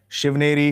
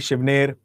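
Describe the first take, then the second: First: The name ends with a final vowel sound. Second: The name ends on a consonant sound. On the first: "some pronounce it as Shivneri" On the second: "some pronounce it as Shivner"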